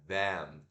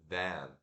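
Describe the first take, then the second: Both takes have the same delivery.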